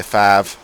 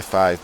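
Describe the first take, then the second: First: Five in a proper Hull accent, flattened to 'fahv'. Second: Said in the usual way. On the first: Shown as a demonstration. Demonstrating the local pronunciation to listeners, Hull accent on five. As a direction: say five the Hull way, as a long flat 'faav'. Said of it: "a proper Hull accent, you say five". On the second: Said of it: "I say five most of the time".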